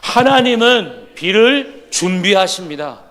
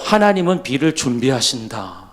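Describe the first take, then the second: First: It is said loudly and joyfully. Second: It is said at normal, softer volume.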